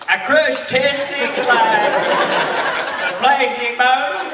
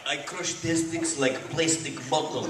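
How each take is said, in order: First: Put-on loud, drawn-out botched Russian accent; mock a hammed-up, terrible Russian accent; Norman. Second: Put-on slow, lower Russian-accented delivery. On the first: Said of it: "Norman goes". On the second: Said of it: "He had to go Russian".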